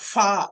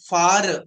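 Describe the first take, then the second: First: The final R sound is silent. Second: The final R sound is pronounced. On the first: The speaker calls it right. "Right ఇలా చెప్పాలి" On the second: The speaker calls it wrong. "అలా చెప్పకూడదు"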